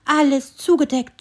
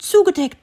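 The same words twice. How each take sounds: First: High, louder squirrel complaining about snow; first "zugedeckt" said high and annoyed; grumbling squirrel. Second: "zugedeckt" repeated even higher and louder, falling; exasperated squirrel repeat. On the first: (erstes "zugedeckt" hoch und ärgerlich) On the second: ("zugedeckt" noch höher und lauter wiederholt) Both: A narrator's reading. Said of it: "ärgerliches Stimmchen".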